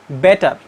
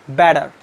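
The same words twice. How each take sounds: First: The middle consonant is a clear T sound. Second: The middle consonant sounds like a soft D. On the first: "The non-native speakers pronounce this word like better" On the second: "They pronounce this T sounds just like D"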